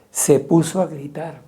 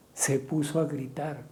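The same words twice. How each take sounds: First: Louder, declaiming the phrase; preacher's loud repeat; raised voice. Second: Softer, pulled-back repeat; preacher's hushed echo; quiet repeat. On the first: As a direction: say it out loud, building. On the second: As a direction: drop it down, almost to yourself. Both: Shown as a demonstration.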